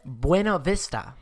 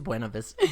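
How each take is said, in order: First: The name is said with fancy, exaggerated flair. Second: The name is said plainly, without flair. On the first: The speaker calls it wrong. "I said that way more fancy than it is" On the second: The speaker calls it right. "It's just Buena Vista"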